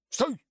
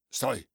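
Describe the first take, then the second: First: «Стой!» yelled much higher and louder; loud high shout. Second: A sharp but moderate command; firm stop. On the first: Боцман кричит итальянцу, громкий высокий крик «Стой!». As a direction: bellow «Стой!» the second time. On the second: Боцман останавливает итальянца, твёрдое «Стой!». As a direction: halt him first without full force. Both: A narrator's reading. Boatswain stopping the Italian.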